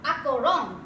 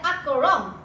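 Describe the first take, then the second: Both takes have the same delivery.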